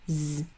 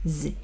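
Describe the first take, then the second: First: The consonant has a slight buzzing, ringing sound. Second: The consonant is plain without a buzzing sound. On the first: The speaker calls it right. "약간 울리는 소리예요" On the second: The speaker calls it wrong. "발음을 할 때는 Z가 아니고요"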